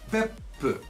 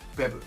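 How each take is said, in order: First: A short silence comes before the p sound. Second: No silence comes before the p sound. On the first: The speaker calls it right. "there's a little pause, like a little blank spot right before when right before the P sound" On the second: The speaker calls it wrong. "not Beppu"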